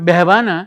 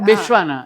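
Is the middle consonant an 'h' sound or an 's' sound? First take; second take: h; s. First: The middle consonant is an h sound. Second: The middle consonant is an s sound. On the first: This is the Ahmedabad way of speaking. "બેહવાના is a very Amdavadi" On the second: This is how the speaker's own community says it. "આપણે તો બેસવાના, એટલે સ તો બોલીએ જ"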